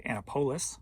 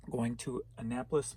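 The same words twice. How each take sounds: First: Annapolis said AN-uh-POH-liss, first syllable stressed, long O; joking mispronunciation. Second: Said in the usual way. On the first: Shown as a demonstration. Seller reading a buyer's city, giving Annapolis his own "AN-uh-POH-liss" twist. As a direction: play Annapolis as "ANN-a-POLE-iss", a goofy twist on the city name. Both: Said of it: "or as I like to say".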